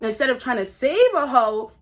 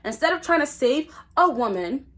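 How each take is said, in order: First: It is said at a normal, quicker pace. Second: It is said slowly and deliberately.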